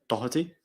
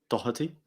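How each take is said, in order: The two takes are said the same way.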